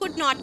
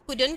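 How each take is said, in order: First: It is said as two full separate words. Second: It is said as one word without a final t. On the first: "कुड नॉट को" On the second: "हम कुडन कहते हैं"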